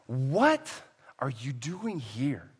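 The word "what" carries the main stress. It questions the purpose of being there. "I think you can emphasize the word what"

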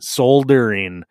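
It is said the Canadian way.

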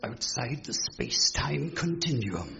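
It is said in a grand, clever-sounding voice.

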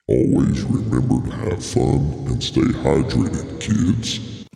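It is said in a put-on demon voice.

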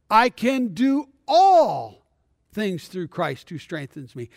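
The word 'all' is stressed.

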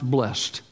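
It is said the Northern US way.

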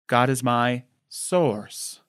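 The word "source" carries the main stress.

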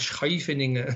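It is said with a German pronunciation. The speaker calls it wrong. "En de Duitsers ... zeg maar Scheveningen"

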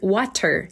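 It is said in a Ghanaian accent. "in Ghana, They say the word water"

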